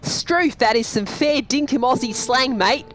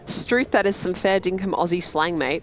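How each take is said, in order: First: It is said in a broad Australian accent. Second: It is read with a mild, plain accent.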